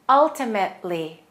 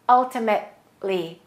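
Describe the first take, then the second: No difference in how they are said.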